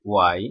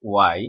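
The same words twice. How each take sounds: Both takes have the same delivery.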